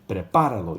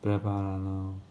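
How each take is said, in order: First: It is said loudly and confidently. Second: It is said quietly and timidly.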